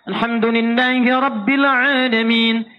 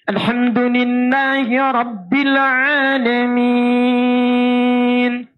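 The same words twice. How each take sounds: First: The stretched vowels are held very briefly. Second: The stretched vowels are held very long. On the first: "Dua harakat" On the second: "Enam harakat paling panjang"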